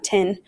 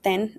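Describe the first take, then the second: First: It is said with an English pronunciation. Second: It is said with a Spanish pronunciation. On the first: The speaker calls it wrong. "not ten" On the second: The speaker calls it right. "We pronounce it ten"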